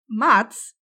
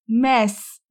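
First: The name is said with a d sound. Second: The name is said without a d sound. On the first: The speaker calls it wrong. "Mads nie jest prawidłową wymową jego imienia" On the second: The speaker calls it right. "Tam nie ma D"

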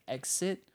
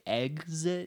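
First: The x sounds like ks. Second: The x sounds like gz. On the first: The speaker calls it right. "instead of exit" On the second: The speaker calls it wrong. "the way we talk has gotten lazier for people to say exit"

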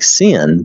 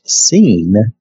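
First: The vowel is short, as in 'sin'. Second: The vowel is long, as in 'seen'. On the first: The speaker calls it wrong. "this is spelled S-I-N, like sin" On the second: The speaker calls it right. "but it's pronounced Sin, S-E-E-N"

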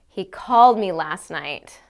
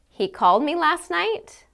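First: It is said in an annoyed tone. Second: It is said as a question. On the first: The speaker is irritated that he called. "I can say it like I'm extremely annoyed by this information" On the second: The speaker is asking whether he called. "I can say it as a question"

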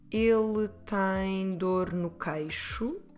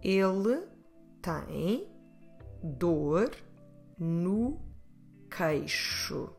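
First: It is said at a faster pace. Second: It is said at a slower pace.

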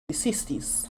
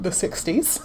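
First: It is said in her normal accent. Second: It is said in an English accent.

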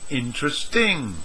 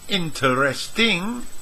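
First: The word is reduced to three syllables. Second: The word is said with four full syllables. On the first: "native speakers reduce this from four to three" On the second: "learners say interesting"

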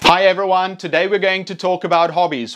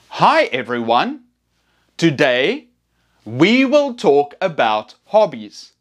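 First: It is said fast, like to native speakers. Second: It is said slowly and clearly.

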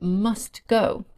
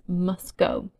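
First: The t sound is pronounced. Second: The t sound is dropped.

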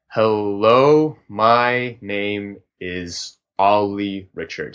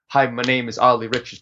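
First: It is drawn out very slowly, like whale talk. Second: It is spoken to a steady rhythmic beat.

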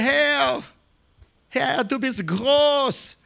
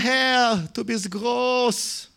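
First: It is said fervently, with real devotion. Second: It is said half-heartedly, without real devotion.

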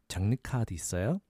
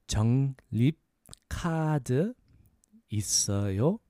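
First: It is said at a faster pace. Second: It is said at a slower pace.

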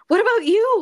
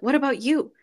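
First: It sounds stressed and anxious. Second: It sounds fairly calm.

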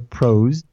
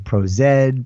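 First: The Z blends into one syllable. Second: The Z is spelled out as zed. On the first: This is how it is said in the States and internally. "We kind of just make it all one" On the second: This is how some people across the pond say it. "folks on the other side of the pond that say ProZed"

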